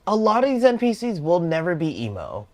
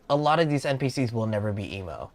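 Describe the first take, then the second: First: High, loud outburst; high-pitched, emphatic insistence; exclaimed protest. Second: Said in the usual way. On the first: Real, not acted. Exasperated first take, then repeated calmly.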